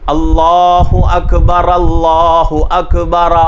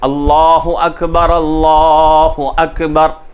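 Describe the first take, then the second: First: The final r is followed by a short vowel. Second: The final r ends with no vowel after it. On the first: The speaker calls it wrong. "अगर कोई आदमी जज़म नहीं देता" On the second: The speaker calls it right. "उस रा को हम क्या कर रहे हैं, जज़म दे रहे हैं"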